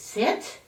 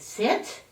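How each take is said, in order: First: It sounds like a hesitant, asking request. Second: It sounds like a hesitant, asking request.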